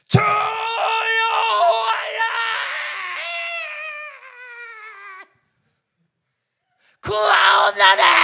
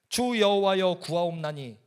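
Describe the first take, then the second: First: It is cried out loudly in anguish. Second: It is said in a plain, calm voice.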